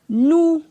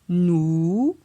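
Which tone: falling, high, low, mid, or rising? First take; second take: high; rising. First: The syllable has a high tone. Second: The syllable has a rising tone. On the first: "Ton haut" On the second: "Ton montant"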